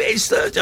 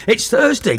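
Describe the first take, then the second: First: Very high, softer squeal; squeaky excited. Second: Bright, high hype; excited. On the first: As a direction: squeak it out in delight. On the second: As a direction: pitch it up, announcing the weekend. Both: Acted. Excited DJ hyping Thursday.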